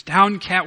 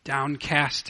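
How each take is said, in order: First: "Downcast" said louder, falling at the end; psalm quoted with force. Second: Said in the usual way. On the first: Retold or imitated. Preacher quotes the psalmist, a louder "Downcast". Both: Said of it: "as the psalmist says".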